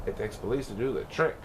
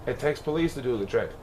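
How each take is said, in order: Both takes have the same delivery.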